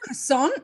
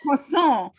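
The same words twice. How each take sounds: First: It is said in an American accent, stress last. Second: It is said with a put-on French accent. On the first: "the accent is like at the end a croissant" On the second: "put on a like fake French accent"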